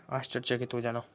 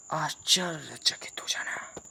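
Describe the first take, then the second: First: Said in the usual way. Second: Slow, breathless whisper of amazement; astonished whisper. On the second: Shown as a demonstration. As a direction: whisper it slowly as if stunned. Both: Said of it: "क्या बोला मैंने?".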